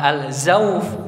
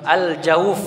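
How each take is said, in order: First: The consonant after al- is a z sound. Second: The consonant after al- is a j sound. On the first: The speaker calls it wrong. "bukan al-zauf" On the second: The speaker calls it right. "pakai jim, al-jauf"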